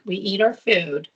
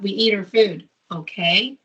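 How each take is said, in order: First: It is said as a firm, final statement. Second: It is said as an asking question.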